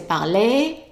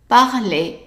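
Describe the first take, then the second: First: The final vowel is dragged out long. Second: The final vowel is clipped short. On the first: The speaker calls it wrong. "don't make the mistake of dragging the a at the end. Don't say parler" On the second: The speaker calls it right. "just parler, short"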